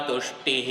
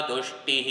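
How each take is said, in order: No difference in how they are said.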